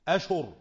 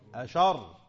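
First: Sh takes a u vowel, and r is single. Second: Sh takes an a vowel, and r is doubled. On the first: "بضم الشين مع فتح الهمزة" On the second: "بفتح الشين وتشديد الراء"

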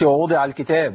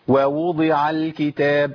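First: Only one waw sound is heard at the start. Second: Two distinct waw sounds are heard at the start. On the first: The speaker calls it wrong. "ما قلتش ووضع الكتاب، فين يا شيخ الواوين؟" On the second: The speaker calls it right. "ده انت عندك واوين"

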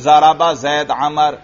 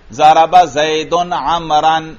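First: The nouns end without any case-ending vowels. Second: The nouns carry audible case-ending vowels. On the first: It is unclear who did the action to whom. The speaker calls it wrong. "میں نے اعراب نہیں پڑھے" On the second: It is clear who did the action to whom. The speaker calls it right. "جب میں اسی پر اعراب پڑھوں گا"

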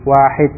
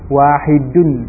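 First: The word ends abruptly without any vowel ending. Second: The word ends with a full -un ending. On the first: This is the form used in everyday conversation. "diucapkan dengan mensukun akhirnya" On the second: This is the form used when studying the language. "kalau dibaca lengkap dengan huruf akhirnya"

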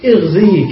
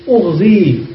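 First: The first vowel is an 'i' sound. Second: The first vowel is a 'u' sound. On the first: "ويجوز لك الكسر" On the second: "يجوز لك الضم"

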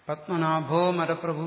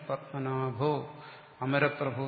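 First: The two words run together, dropping the initial vowel. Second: The two words are separated, keeping the initial vowel. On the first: The compound is pronounced as one unit. "പത്മനാഭോ മരപ്രഭു എന്ന് ഉച്ചരിച്ചാൽ മതി. ... അത് ശുദ്ധമായ ഉച്ചാരണമാണ്" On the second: The parts are separated so the meaning is clear. "പത്മനാഭോ അമരപ്രഭു എന്ന് പിരിച്ചുച്ചരിക്കാം"

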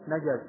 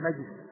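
First: The middle consonant is followed by an a vowel. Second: The middle consonant has no vowel after it. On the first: "يجوز في الجيم الفتح" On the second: "ويجوز السكون"

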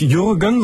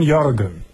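First: The first vowel is a German ü sound. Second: The first vowel is a German ö sound. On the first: The speaker calls it wrong. "also nicht Jürgen" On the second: The speaker calls it right. "sondern Jürgen ... Jürgen mit Ö ist richtig"

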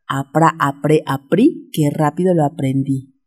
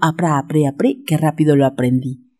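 First: It is said at a faster pace. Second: It is said at the fastest pace. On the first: "¿Más rápido?" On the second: "Más rápido"

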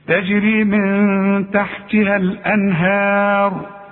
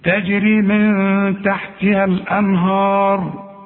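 First: The h sound is pronounced light and thin. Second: The h sound is pronounced heavy and emphatic. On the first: The speaker calls it right. "الهاء مرققة" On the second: The speaker calls it wrong. "هتغلط فيها"

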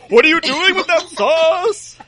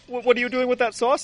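First: It is spoken in a put-on German accent. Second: It is spoken in a put-on Canadian accent. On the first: "I guess they all talk like Colonel Clink" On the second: "wouldn't it turn them Canadian then? Like"

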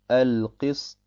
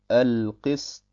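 Both takes have the same delivery.

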